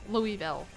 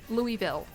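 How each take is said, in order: The two takes are said the same way.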